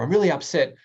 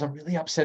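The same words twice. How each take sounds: First: It is said in a sharp, angry tone. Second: It is said in a gentle, empathetic tone. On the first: The speaker is showing strong displeasure. "The same words, but with a bit more anger" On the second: The speaker is seeking help and understanding. "That's quite an empathetic approach"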